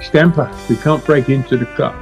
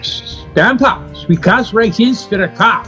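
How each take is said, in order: First: It is said in the speaker's normal accent. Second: It is said in a put-on German accent.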